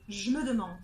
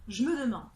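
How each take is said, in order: First: The e of je is dropped. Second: The same.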